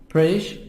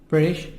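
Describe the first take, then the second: The two takes are said the same way.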